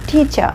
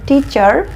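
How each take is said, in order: First: The word ends with a plain 'uh' sound. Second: The word ends with an r sound. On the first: The speaker calls it right. "British ইংলিশে কথা বলতে চাই তখন আমি বলবো" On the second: The speaker calls it wrong. "এভাবে না বলে"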